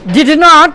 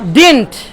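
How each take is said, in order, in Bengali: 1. এটা দুটো পূর্ণ শব্দ হিসেবে বলা হয়। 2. এটা একটা সংকুচিত শব্দ হিসেবে বলা হয়। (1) "লেখার ক্ষেত্রে এভাবেই থাকে" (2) "কিন্তু বলার সময় বলে। বলেন ডিডন্ট"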